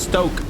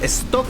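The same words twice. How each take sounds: First: The name is said with an English pronunciation. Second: The name is said with a Spanish pronunciation. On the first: "if you're trying to pronounce it in English" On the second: "the real pronunciation is"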